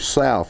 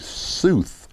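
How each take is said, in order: First: The vowel sounds like 'ow' in 'cow'. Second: The vowel sounds like 'oo' in 'tooth'. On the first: This is the ordinary pronunciation. "they don't say South" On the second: This is how people in that region say it. "they say Sooth"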